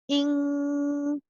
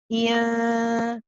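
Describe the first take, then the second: First: The nasal is made with the tongue back raised. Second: The nasal is made with the tongue back lowered. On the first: The speaker calls it right. "the back of the tongue is pressing on the kaf, so it actually sounds like ing" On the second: The speaker calls it wrong. "if I wasn't pressing at the top, it would sound like"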